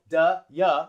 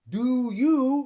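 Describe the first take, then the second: First: Both words are shortened to quick, reduced vowels. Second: Both words keep their full, long vowels. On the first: The speaker calls it right. "Duh, yeah is a little bit shorter" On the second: The speaker calls it wrong. "Do you is long"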